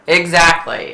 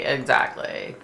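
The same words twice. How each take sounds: First: Said in the usual way. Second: A hushed second exactly; whispered echo. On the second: Real, not acted. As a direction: breathe it again to yourself.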